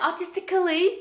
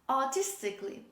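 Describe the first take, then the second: First: An extra 'al' syllable is pronounced before 'ly'. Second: The 'al' is silent before 'ly'. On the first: The speaker calls it wrong. "Don't say artistically" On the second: The speaker calls it right. "this is artistically"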